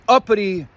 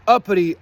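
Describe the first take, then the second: No difference in how they are said.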